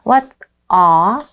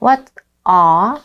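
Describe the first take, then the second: First: The t is pronounced crisply and clearly. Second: The t is pronounced crisply and clearly.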